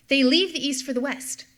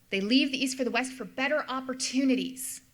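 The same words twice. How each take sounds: First: "leave" pushed out louder; stress on leave. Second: Said in the usual way. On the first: Shown as a demonstration. Lecturer stressing "leave" to students. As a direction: lean hard on "leave" to drive the point home.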